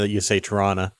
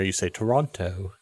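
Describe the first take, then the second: First: It is said the way locals say it. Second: It is said the way outsiders say it.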